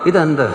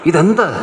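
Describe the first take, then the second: First: It is said with scorn and disgust. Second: It is said with amazement and wonder. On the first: They are sick of the thing. "അത് നിന്നയായിട്ട് പറയാൻ തുടങ്ങി" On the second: The thing is new and marvelous. "അവർക്ക് വന്ന അതിശയത്തെ അത് കാണിക്കുന്ന"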